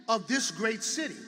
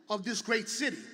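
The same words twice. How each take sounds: Both takes have the same delivery.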